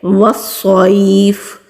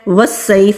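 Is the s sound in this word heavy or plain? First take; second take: heavy; plain. First: The s sound is heavy and thick. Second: The s sound is thin and plain. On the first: The speaker calls it right. "बल्कि वस्सैफ" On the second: The speaker calls it wrong. "वस्सैफ नहीं पढ़ेंगे"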